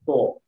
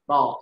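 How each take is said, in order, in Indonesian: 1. Vokal itu dibuat dengan bibir dimonyongkan dan membulat. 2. Vokal itu dinaikkan tanpa membulatkan bibir. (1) "bukan to" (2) "Ko harusnya naik. To"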